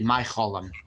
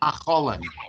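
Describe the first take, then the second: First: The first vowel is an eye sound. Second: The first vowel is a plain ah sound. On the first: It marks Polish Yiddish. "in I think Polish Yiddish it would be Mycholim" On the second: It marks southern Yiddish. "the I sound is usually for him ah"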